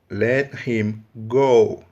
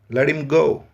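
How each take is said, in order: First: Both the t and the h are clearly pronounced. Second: The h of him is silent.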